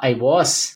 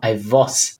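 First: The W in 'was' is a W. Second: The W in 'was' sounds like a V.

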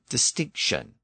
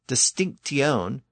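First: The ending is pronounced with an sh sound. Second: The ending is pronounced with a t sound. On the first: This is the later softened form. "It became shion or sion" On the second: This is the older original form. "the original pronunciation was tion"

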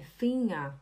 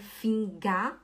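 First: The ng is one smooth nasal sound. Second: The g after the nasal is sounded separately. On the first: The speaker calls it right. "é Finger" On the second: The speaker calls it wrong. "Não é Finga"

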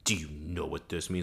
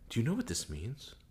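First: It is said angrily and loudly. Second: It is said calmly and quietly.

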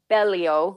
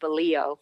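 First: The name is said the Italian way. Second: The name is said the American way.

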